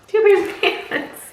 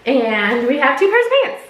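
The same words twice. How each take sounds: First: Higher with a laugh on pants. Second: Said in the usual way. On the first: Shown as a demonstration. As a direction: laugh it out amused.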